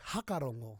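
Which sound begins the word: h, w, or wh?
h. The word begins with a plain h sound. This is how northern speakers say it. "they'll say hakarongo"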